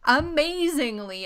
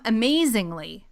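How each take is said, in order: First: "amazingly" stretched slow and high; drawn-out amazingly. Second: Said in the usual way. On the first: Shown as a demonstration. Host savoring "amazingly" to co-host, stretched. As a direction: lean into "amazingly" slowly.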